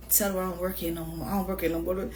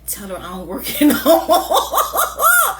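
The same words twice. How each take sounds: First: Said in the usual way. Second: Coworker's line, high and loud through laughter; laughing quote. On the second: Retold or imitated. Retelling the coworker hiding from her, laughing. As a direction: quote him while cracking up. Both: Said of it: "he in the back talking about".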